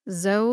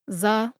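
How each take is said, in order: First: The vowel is an 'oh' sound. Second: The vowel is an 'uh' sound. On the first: "Zo like toe" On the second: "Za like duh"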